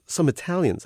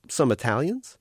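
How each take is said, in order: First: Some Italians, split clearly and pressed higher; insistent correction. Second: Said in the usual way. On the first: Acted. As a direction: spell it out for the machine. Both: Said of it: "You said Somalians".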